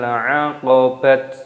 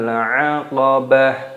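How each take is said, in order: First: The word ends with a t sound. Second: The word ends with an h sound. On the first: The speaker calls it wrong. "bukan falaqtahamal 'aqabat, bukan seperti itu" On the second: The speaker calls it right. "ketika berhenti ... maka berubah menjadi huruf H"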